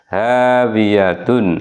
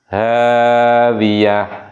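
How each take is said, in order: First: The word ends with a full 'tun' syllable. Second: The word ends with a silent-vowel 'h' sound.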